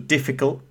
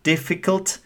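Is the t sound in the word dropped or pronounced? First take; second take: dropped; pronounced. First: The t sound is left out. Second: The t sound is fully pronounced.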